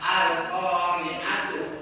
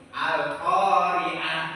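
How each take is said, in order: First: The word ends with a t and vowel. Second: The word ends with an h sound. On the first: The reading continues without stopping. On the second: The reading stops here. "taknya menjadi huruf H"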